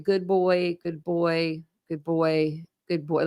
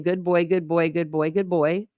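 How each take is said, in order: First: Put-on Good boy repeated softly, fading a little each time; self-comforting repetition. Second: Said in the usual way. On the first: Shown as a demonstration. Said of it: "like, a comforting thing?". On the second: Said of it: "Maybe he's saying, like".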